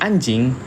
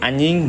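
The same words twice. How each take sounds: First: The middle consonant is a j sound. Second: The middle consonant is a y sound. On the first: The speaker is really angry. "berarti dia marah" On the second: The speaker is relaxed and joking. "kalau dia masih pakai Y"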